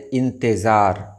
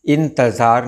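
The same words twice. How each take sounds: First: इंतज़ार said with "e" after t; correct pronunciation. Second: इंतज़ार with short "a" after t; wrong pronunciation. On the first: Teacher giving viewers the right word, correctly pronounced. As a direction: say "in-te-zaar" for इंतज़ार. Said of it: "सही लफ्ज़ है". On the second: Teacher showing viewers the common error, mispronounced. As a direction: say "in-ta-zaar" for इंतज़ार. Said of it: "नहीं होता है". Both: Shown as a demonstration.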